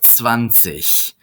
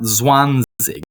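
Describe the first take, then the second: First: The final g is a soft ch sound. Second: The final g is a hard g sound. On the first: The speaker calls it right. "the G at the end of a word, zich, is pronounced like the sh, C H" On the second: The speaker calls it wrong. "not zwanzig"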